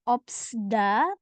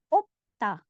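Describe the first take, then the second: First: An s sound is pronounced before the final syllable. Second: No s sound is pronounced before the final syllable. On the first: The speaker calls it wrong. "Jadi bukan dibaca opsda" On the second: The speaker calls it right. "tapi opta"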